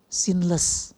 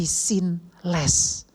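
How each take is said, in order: First: Said in the usual way. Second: "sinless" drawn out as two words, sin... less; split word. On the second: Shown as a demonstration. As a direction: say "sinless" slowly with a clear break before "less".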